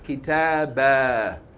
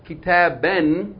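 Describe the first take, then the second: First: The word ends with a long a vowel. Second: The word ends with a short vowel plus n. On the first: The reader stops on this word. "you're going to pronounce it as though it's fatta alif" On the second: The reading continues past this word. "instead of kitaben with tanween, fatta noon"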